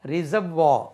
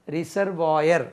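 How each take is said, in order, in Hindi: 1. इस शब्द का अंत 'vah' ध्वनि से होता है। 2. इस शब्द का अंत 'vayar' ध्वनि से होता है। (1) "इसका तलफ़ुज़ रिजर्वा" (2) "हम जनरली ... रिजर्वायर कहते हैं हम, ये गलत है।"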